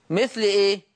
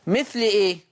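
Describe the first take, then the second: No difference in how they are said.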